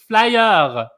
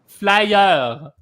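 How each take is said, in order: Both takes have the same delivery.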